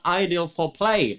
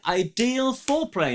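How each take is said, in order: First: The stress falls on the word's second syllable. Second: The stress falls on the word's first syllable. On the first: The speaker calls it wrong. "It's misstressing all the words" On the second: The speaker calls it right.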